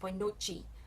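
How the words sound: Noite ends with a ch sound. This is the southern Brazilian way. "in the south... with the chi at the end, which is southern"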